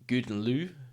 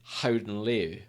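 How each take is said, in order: First: The first word begins with a hard G sound. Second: The first word begins with a breathy H sound. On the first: The speaker calls it wrong. "it looked like Good and Lou" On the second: The speaker calls it right. "it's actually Howden Leu is how you pronounce it"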